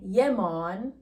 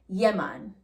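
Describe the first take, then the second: First: The second word has an O vowel, mon. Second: The second word has an A vowel, man. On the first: The speaker calls it wrong. "We don't use an O" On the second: The speaker calls it right. "we say man, like the human male man"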